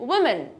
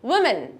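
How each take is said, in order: First: The first syllable 'wi' is said lightly. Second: The same.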